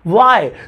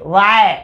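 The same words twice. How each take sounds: First: It is said with lively expression. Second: It is said flatly, without expression.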